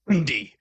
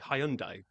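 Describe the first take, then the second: First: It is said the American way, starting 'Hun'. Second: It is said with a European pronunciation. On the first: "But you say Hun, especially when you hear on some of the commercials on T V, they just go" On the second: "but I would say Hyundai"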